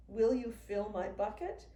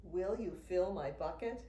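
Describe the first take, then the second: No difference in how they are said.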